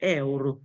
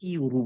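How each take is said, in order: First: The word begins with an 'eh' sound. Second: The word begins with a 'yoo' sound. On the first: The speaker calls it right. "কিন্তু এটা আসল উচ্চারণ হবে এ ওর" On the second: The speaker calls it wrong. "অনেকে বলে এটাকে ইউরো বলে"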